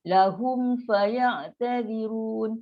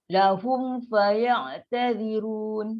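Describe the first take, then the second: Both takes have the same delivery.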